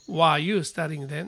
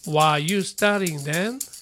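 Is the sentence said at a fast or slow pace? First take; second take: fast; slow. First: It is said at a natural, quicker pace. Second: It is said at a slow, careful pace.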